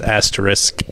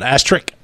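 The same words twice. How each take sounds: First: The s before the final k is pronounced. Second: The s before the final k is dropped. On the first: The speaker calls it right. "There's an S in there. It's asterisk" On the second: The speaker calls it wrong. "It's not asterisk"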